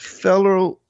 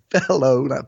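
First: The word ends with a reduced 'er' sound. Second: The word ends with a full 'oh' sound. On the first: The speaker calls it wrong. "let me say that correctly" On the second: The speaker calls it right. "let me say that correctly"

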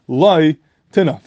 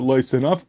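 First: There is a pause after the first word. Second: It is read straight through without a pause.

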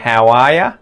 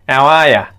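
First: 'You' is reduced to 'ya', with 'how' kept. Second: 'You' becomes 'ya' and the h is dropped. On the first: "We would say" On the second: "you can remove that H and it sounds like"

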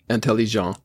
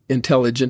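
First: The word is said with French pronunciation. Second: The word is said with English pronunciation. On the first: "in French" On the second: "in English"

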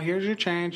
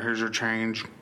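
First: It is said in a peppy, lively way. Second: It is said in a flat, plain way.

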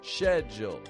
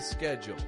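First: The word begins with an sh sound. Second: The word begins with an sk sound. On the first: "making a sh" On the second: "In my accent, we'd say schedule"

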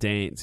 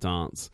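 First: It is said with a broader Australian vowel. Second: It is said with a milder Australian vowel. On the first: This is how the more strongly Australian speakers say it. "and dance" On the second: This is the usual local way to say it. "instead of dance"

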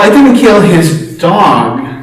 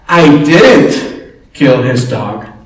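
First: The stress is on the word 'dog'. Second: The stress is on the word 'I'. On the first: The speaker killed something else of his. "Well, what did you kill, right?" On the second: Someone else did it. "Or someone else said"

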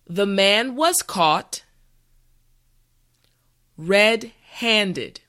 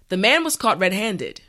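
First: The sentence is said slowly and carefully. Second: The sentence is said at a normal pace. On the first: "this time repeat after me" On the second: "the last time at a regular pace"

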